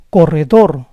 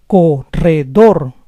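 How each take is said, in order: First: Said in the usual way. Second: Corredor split as co-rre-DOR; syllable by syllable. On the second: Shown as a demonstration. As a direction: say Corredor in parts, stressing DOR. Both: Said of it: "the stress is on the last syllable".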